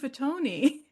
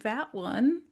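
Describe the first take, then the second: First: The name is said with Italian pronunciation. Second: The name is said like English fat one.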